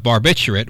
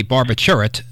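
First: Said in the usual way. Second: Barbiturate said as "barba-CHUR-it"; Carter's pronunciation. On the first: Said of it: "the way I always thought it was". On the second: Retold or imitated. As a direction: say barbiturate with a "chur" in place of "bitch-ur". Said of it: "he would say barbiturate".

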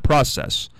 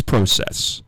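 First: Process said "PRAH-sess"; short-o pronunciation. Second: Process said "PRO-sess"; long-o pronunciation. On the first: Host rejecting the common way, process with "ah". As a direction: open ah in process. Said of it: "It's not process". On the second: Host defending his way, process with long o. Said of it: "but it is process". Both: Shown as a demonstration.

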